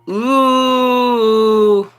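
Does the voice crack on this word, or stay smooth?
smooth. The voice stays smooth without cracking. The speaker calls it wrong. "I can do it without cracking my voice"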